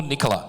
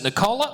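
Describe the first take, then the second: First: Nicola said NIK-uh-la, stress up front; stressed first syllable. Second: Nicola said ni-KOH-la, stress on the middle; stressed middle syllable. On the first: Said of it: "First question, is it Nicola or Nicola". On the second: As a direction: lean on a long O in Nicola. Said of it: "I knew I'd get it wrong". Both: Shown as a demonstration.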